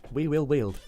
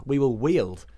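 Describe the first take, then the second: First: Careful We will wield; slowing on We will wield to get it out; tongue-twisted. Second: Slow stumbling We will wield. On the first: Struggling with the tongue-twister We will wield. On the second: Trying to pronounce we will wield as a tongue-twister. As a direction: trip over we will wield. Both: Real, not acted. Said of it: "That's hard to say".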